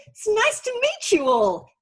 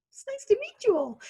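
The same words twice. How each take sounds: First: High, slow, sing-song cheery hello; sugary high-pitched nice to meet you; overly chirpy greeting. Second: Very high, squeaky sing-song parody; childish high mock of the greeting; mocking chirpy greeting. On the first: Retold or imitated. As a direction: wave at the room with a bright, stretched sing-song. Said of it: "in that tone of voice". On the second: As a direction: tease it the way the kids do, high and sweet. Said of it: "my children still tease me".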